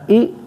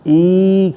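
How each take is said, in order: First: The vowel is cut off with a jerk. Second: The vowel is drawn out long. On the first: "न ई झटके के साथ पढ़नू" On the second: "न ई खेचे ने पढ़नू"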